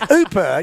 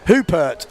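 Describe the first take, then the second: First: It is said without the H or final T. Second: It is said with the H and final T. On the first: The speaker calls it right. "you don't pronounce the H, you don't pronounce the T" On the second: The speaker calls it wrong. "everyone was like, no, you don't pronounce the T"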